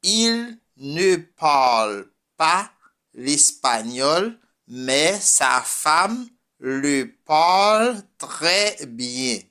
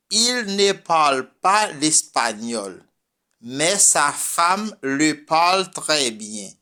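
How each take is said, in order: First: Slow repeat. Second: Said in the usual way. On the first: Shown as a demonstration. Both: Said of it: "unas frases en francés".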